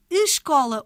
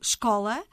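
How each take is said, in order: First: The initial vowel is clearly pronounced. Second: The initial vowel is swallowed by the consonant. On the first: "articulada com algum destaque fonético" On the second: "engolida pela consoante seguinte"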